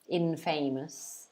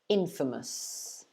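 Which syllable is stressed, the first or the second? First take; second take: second; first. First: The stress is on the second syllable. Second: The stress is on the first syllable. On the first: The speaker calls it wrong. "some people might want to pronounce it infamous, infamous, but it's not pronounced that way" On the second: The speaker calls it right. "it's pronounced like this ... So the stress is at the beginning of the word"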